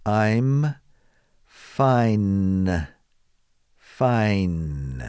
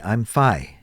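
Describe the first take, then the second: First: "fine" finished with a clear, held N at the end; careful "fine" with its N sounded; clear final n. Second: "fi" with the final N dropped off fine; learner's clipped "fi" without the N. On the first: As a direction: ring out the N of "fine". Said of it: "Let's hear that end sound". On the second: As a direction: say "I'm fi" clipping the word before the N. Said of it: "they often just simply say". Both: Shown as a demonstration.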